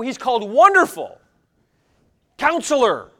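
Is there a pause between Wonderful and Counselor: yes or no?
yes. Wonderful and Counselor are separated by a pause.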